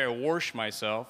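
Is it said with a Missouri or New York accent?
Missouri. It is said with a Missouri accent.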